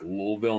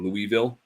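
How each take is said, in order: First: Some sounds of the name are swallowed. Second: Every sound of the name is said. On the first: This is how people commonly say it. The speaker calls it wrong. "when people pronounce Louisville like Louisville" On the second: This is how it should be said. The speaker calls it right. "instead of Louisville, because it's definitely Louisville"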